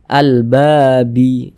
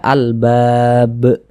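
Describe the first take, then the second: First: The word ends with a short final vowel. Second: The word ends on a consonant, no final vowel. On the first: The speaker calls it wrong. "Jangan dibaca al-babi" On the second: The speaker calls it right. "kita baca al-bab"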